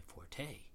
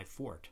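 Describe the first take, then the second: First: "forte" said as for-tay; two-syllable pronunciation. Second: "forte" said as fort; one-syllable pronunciation. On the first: Second-guessing the first reading, two-syllable forte. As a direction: sound the final vowel of "forte" as tay. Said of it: "two-syllable pronunciation forte". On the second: Questioning how to say foreign words, one-syllable forte. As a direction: say "forte" with a silent final e. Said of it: "where it has one syllable". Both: Shown as a demonstration.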